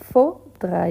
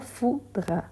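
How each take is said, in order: First: The first vowel sounds like the vowel in 'faut'. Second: The first vowel sounds like the vowel in 'fou'. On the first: The speaker calls it right. "faut, c'est A plus U" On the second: The speaker calls it wrong. "Fou, c'est O plus U"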